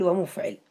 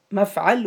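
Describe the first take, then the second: First: ومفعل said "wa-mufʕil"; u then i in ومفعل, "wa-muf-ʕil"; damma on mim, kasra on ayn. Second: مفعل said slowly as "mafʕal"; a in both syllables of مفعل, "maf-ʕal"; fatha on mim and ayn. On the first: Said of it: "بضم الميم وكسر العين". (ومفعل بضم الميم وكسر العين: وَمُفْعِل) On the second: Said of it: "بفتح الميم وفتح العين". (مفعل بفتح الميم والعين: مَفْعَل) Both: Shown as a demonstration.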